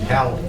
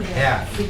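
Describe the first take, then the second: First: The L sound is pronounced. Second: The L sound is silent. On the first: The speaker calls it wrong. "Don't try to put an L in there, it won't work" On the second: The speaker calls it right. "It's a silent L"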